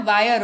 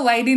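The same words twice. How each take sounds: First: वायर said as "vaa-yar"; correct reading. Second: वायरी said as "vaa-ee-ree"; wrong reading. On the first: Teacher corrects viewers, giving the right pronunciation. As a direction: end वायर in a "yar" glide, no "ee". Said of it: "वायर होता है". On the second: Teacher corrects viewers, showing the wrong pronunciation. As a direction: read वायरी with "ee-ree" at the end. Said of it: "वायरी नहीं होता है". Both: Shown as a demonstration.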